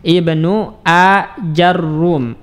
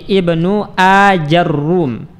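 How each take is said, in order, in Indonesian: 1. 'a' mengikuti j, dan r-nya dobel. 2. 'a' mengikuti j, dan r-nya dobel.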